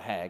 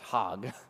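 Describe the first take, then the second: First: The vowel sounds like the one in 'cat'. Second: The vowel sounds like the one in 'hot'. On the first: The speaker calls it wrong. "It looks like hag, but it's not hag" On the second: The speaker calls it right. "it's hog"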